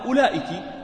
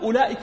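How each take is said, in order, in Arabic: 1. الكاف الأخيرة عليها صوت 'i'. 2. الكاف الأخيرة عليها صوت 'a'. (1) "فالصواب أنها أولئك" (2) "ولكن أولئك ليست خطأ"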